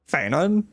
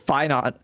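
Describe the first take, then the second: First: The first syllable sounds like 'fan'. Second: The first syllable sounds like 'fine'. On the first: The speaker calls it right. "the correct way of saying his name is Fanon" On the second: The speaker calls it wrong. "I read that as fine on"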